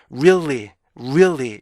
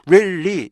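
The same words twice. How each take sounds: First: "really" as ree-ul-lee, glide then fall; rounded rise and fall on "really"; native-reader REALLY. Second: "really" as rilli with a doubled L; two even syllables in "really", no glide; Korean-reader REALLY. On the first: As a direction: keep a hidden beat inside "really". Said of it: "이렇게 읽는다는 거예요". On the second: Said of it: "이렇게 읽지만". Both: Shown as a demonstration.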